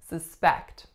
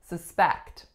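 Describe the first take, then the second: First: The stress is on the second syllable. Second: The stress is on the second syllable.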